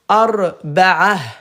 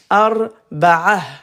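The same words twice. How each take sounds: First: The ending is pronounced with an h sound. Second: The ending is pronounced with an h sound.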